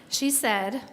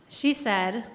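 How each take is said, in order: Both takes have the same delivery.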